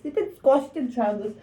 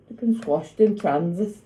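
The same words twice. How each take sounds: First: Squashed said high and whiny; high playful lament; high mock-whiny voice. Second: Said in the usual way. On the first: Real, not acted.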